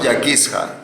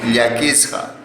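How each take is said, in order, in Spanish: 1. El primer sonido sigue la letra escrita. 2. El primer sonido sigue la forma hablada de todos los días. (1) "No yaquisja" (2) "en contexto se pronuncia ya"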